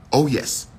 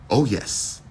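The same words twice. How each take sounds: The two takes are said the same way.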